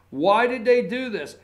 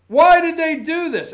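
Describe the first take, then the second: First: Said in the usual way. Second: High, loud, laughing mock outrage; mock outraged question. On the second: Host mocking the morning anchor's outrage, laughing. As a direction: ham up the anchor's indignant why. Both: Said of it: "what they were saying this morning".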